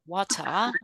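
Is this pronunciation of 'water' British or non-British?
British. It is said in a British accent. "as British people"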